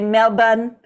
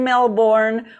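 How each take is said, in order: First: It is said with an Australian accent. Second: It is said with an American accent.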